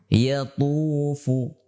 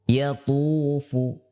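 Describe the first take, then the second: No difference in how they are said.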